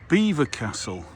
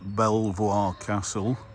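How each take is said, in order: First: The name is said like the word beaver. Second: The name is said as bel-vwar, following spelling. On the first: The speaker calls it right. "which is the pronunciation that you see there" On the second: The speaker calls it wrong. "we're not at Belvoir Castle"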